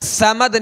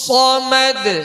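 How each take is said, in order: First: The first consonant is thin and light. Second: The first consonant is heavy and emphatic. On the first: The speaker calls it wrong. "समद नहीं पढ़ेंगे" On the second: The speaker calls it right. "सख्ती से अदा करेंगे और पुर पढ़ेंगे"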